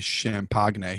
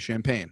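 First: The g sound is pronounced in the word. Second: The g sound is silent in the word. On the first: The speaker calls it wrong. "You don't say champagne" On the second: The speaker calls it right. "You say champagne"

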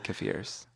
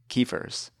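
First: It is said in the speaker's own usual way. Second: It is said the way Pittsburgh people say it. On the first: This is the speaker's personal usage. "but I say kefirs" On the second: This is the local regional usage. "People in Pittsburgh say kefirs"

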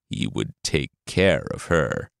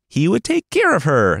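First: It is said in a sinister, evil tone. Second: It is said in a very sweet tone.

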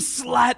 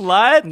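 First: The word is said in an insulting, contemptuous tone. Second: The word is said in an approving, cheering tone. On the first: The word is meant as an insult. The speaker calls it wrong. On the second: The word is meant as praise. The speaker calls it right.

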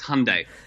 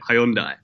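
First: The name is said the American way. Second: The name is said the British way. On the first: "They were like, "No, it's Hyundai."" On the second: "from the UK where we call it Hyundai"

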